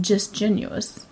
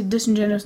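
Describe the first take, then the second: First: "disgenuous" said without the middle "in"; "disgenuous", dis plus genuous, drawn out slightly; shortened pronunciation. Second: Said in the usual way. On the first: Shown as a demonstration. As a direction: say "disgenuous" as dis-GEN-uous, a syllable short. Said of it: "not just disgenuous". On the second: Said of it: "why would you say disingenuous".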